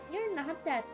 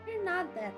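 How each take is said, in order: Both takes have the same delivery.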